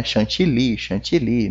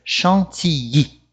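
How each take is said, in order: First: "chantilly" with a clear L; everyday Portuguese "chan-ti-li"; Portuguese pronunciation. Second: "chantilly" as "shan-ti-yi", no L; French "chantilly" with nasal first syllable; French pronunciation. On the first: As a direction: say "chantilly" the Brazilian way, L sounded. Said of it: "a gente fala muito em português". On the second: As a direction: turn the LL of "chantilly" into a y glide. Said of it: "a pronúncia correta aqui em francês é". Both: Shown as a demonstration.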